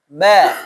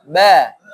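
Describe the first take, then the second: No difference in how they are said.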